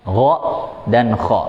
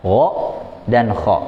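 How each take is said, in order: First: "Gha dan kha" rasped at the top of the throat; "Gha" voiced and "kha" rough and airy; Arabic gha and kha. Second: "Gha dan kha" again, rasped from the throat; Arabic gha and kha repeated. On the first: Teacher models the two throat letters. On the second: Teacher repeats the throat letters for the class. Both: Shown as a demonstration. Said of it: "Keluar huruf apa".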